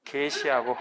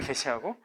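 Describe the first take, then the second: First: 개시하고 with 개 held long; drawn-out 개 at the start of 개시하고; long vowel. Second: 개시하고 with 개 kept short; quick, unstretched 개 at the start of 개시하고; short vowel. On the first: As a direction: stretch the first vowel of 개시하고. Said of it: "이거는 장음으로 발음하셔야 돼". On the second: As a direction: say the first vowel of 개시하고 briefly. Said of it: "이거는 단음으로 발음해야 되고". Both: Shown as a demonstration.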